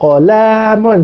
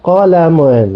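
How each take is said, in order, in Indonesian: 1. Vokal setelah L panjang. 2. Vokal setelah L pendek. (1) "Kalau kolamon salah" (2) "kena pendek kan eh. Lam tu tak ada alif"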